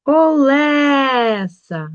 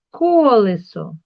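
First: "Колеса" with a long, loud, high Е; stress on Е. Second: "Колесо" loud on the first syllable; stress on first О. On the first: Teacher showing the check word, stressed Е. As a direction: stretch the middle syllable of "Колеса" loudly. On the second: Teacher reading the word to check, stressed first О. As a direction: slowly punch the first О of "Колесо". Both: Shown as a demonstration. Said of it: "Під наголосом".

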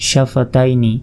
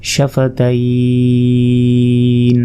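First: Said in the usual way. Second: সাফা তাইন with তাই held very long before the n; elongated pause form. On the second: Shown as a demonstration. Teacher showing the stop, তাইন drawn out long. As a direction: stretch the glide in তাইন, closing on n. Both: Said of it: "এখানে ওয়াকফ করলে".

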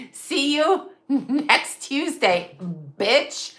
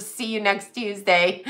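First: Slow, half-laughing, half-crying. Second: Said in the usual way. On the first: Real, not acted. Quoting the client's insult, breaking up laughing. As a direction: drag it out through helpless laughter.

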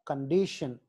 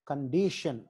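The two takes are said the same way.

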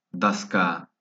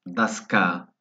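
No difference in how they are said.

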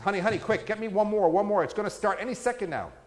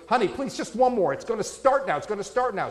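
First: Pleading higher, rushed and insistent; urgent pleading. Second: Hammed-up begging for just one more; desperate pleading. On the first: Acted. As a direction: beg for one more drink, mock urgent. Husband more urgent in joke. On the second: Husband begging in joke.

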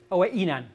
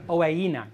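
First: Owe inan with a glottal break before inan; choppy owe inan, stopped between words. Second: Owe inan linked smoothly with no glottal stop; smooth, no break. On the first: Teacher demonstrating a wrong glottal break to students. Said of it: "owe inan as if it had a glottal stop". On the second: Teacher correcting himself for students, smooth linking. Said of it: "It should be smooth". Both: Shown as a demonstration.

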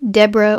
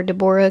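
First: Deborah as DEB-ruh, first syllable stressed; alternative pronunciation. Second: Deborah as duh-BOR-uh, middle syllable stressed; alternative pronunciation. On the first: Narrator resuming with both options, Deborah as DEB-ra. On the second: Narrator resuming with both options, Deborah as de-BOR-ah. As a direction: say Deborah in three beats, de-BOR-ah. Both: Shown as a demonstration. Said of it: "mispronounced that".

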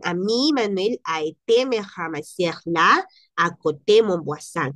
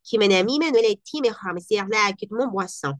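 First: Francés rápido ligado. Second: Said in the usual way. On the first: Shown as a demonstration. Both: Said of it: "Quiere decir".

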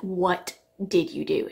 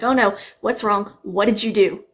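First: Slow, spaced-out questioning; drawn-out mock interrogation; retold accusation. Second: Louder, urgent questioning; mock alarm, firing questions; retold alarmed grandma. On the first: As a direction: imitate grandma demanding an answer, word by word. Retelling grandma's accusing question. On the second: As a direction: imitate a grandma rushing in alarmed. Retelling grandma running in, alarmed.

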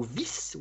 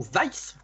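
First: Vice said as French "vis"; French reading. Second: Vice said as English "vice" with a diphthong; English reading. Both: Shown as a demonstration. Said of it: "accent pourri".

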